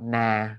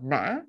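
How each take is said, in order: First: The pitch falls steadily downward. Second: The pitch goes up, down, then up again. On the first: "like the falling down" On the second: "like a up and then down and then up again"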